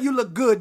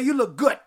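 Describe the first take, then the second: First: The last word ends with a d sound. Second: The last word ends with a t sound. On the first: "we don't say you look good, G-O-O-D" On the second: "We say you look good. G-O-O-T"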